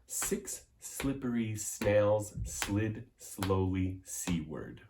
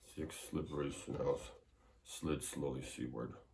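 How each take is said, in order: First: The voice is projected with an easy, steady rhythm. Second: The voice is swallowed, muffled and inexpressive. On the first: The speaker calls it right. "we try it again with the rhythm. Nice and easy rhythm" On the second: The speaker calls it wrong. "You don't want to swallow your voice like"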